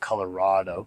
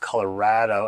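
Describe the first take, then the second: First: The stressed vowel does not sound like 'rad'. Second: The stressed vowel sounds like the vowel in 'rad'. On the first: This is not how locals say it. The speaker calls it wrong. "not Colorado" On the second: This is how locals say it. The speaker calls it right. "they pronounce Colorado as in it's rad"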